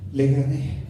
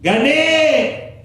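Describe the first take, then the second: First: Said in the usual way. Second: Much higher and louder, held; triumphant yell; victory shout. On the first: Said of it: "Ustedes creen que el gladiador decía". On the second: Retold or imitated. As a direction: roar the win to the crowd. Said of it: "No, él gritaba".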